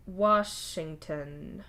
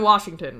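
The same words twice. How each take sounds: First: "Washington" drawn out very slowly, syllable by syllable; unfamiliar word. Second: Said in the usual way. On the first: Acted. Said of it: "the word sounding strange in his mouth".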